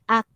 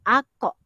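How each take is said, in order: First: The final k stops without a bouncing echo. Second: The final k bounces with an echoing release. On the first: The speaker calls it right. "dia bukan qalqalah. Jadi kita sebut ak" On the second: The speaker calls it wrong. "Dia bukan ako, tidak"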